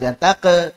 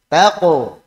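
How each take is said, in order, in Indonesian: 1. Vokal setelah q terdengar tipis dan terbuka. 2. Vokal setelah q terdengar tebal dan membulat.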